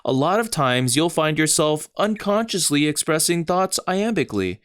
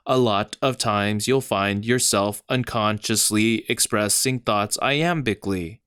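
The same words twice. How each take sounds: First: Said in the usual way. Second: "A lot of times you'll find yourself unconsciously expressing thoughts iambically" read with weak-strong beats; iambic stress. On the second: Shown as a demonstration. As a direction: beat out "A lot of times" da-DUM style. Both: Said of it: "in the sentence I just said".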